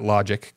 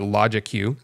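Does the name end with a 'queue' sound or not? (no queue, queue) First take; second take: no queue; queue. First: The name ends without any 'queue' sound. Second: The name ends with an extra 'queue' sound. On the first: The speaker calls it wrong. "I hate people calling that logic, because that's just dumb" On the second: The speaker calls it right. "so I'm going to say it like that"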